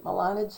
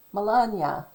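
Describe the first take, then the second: First: Melania without the y-glide, ending in plain "-na"; unsure pronunciation. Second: Melania with a y-glide, muh-LAHN-yuh; J pronounced as y. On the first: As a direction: say "Melania" as muh-LAH-nuh. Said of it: "I'm not gonna say it right". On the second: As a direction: say "Melania" ending firmly in "-nya". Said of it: "there's a J". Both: Shown as a demonstration.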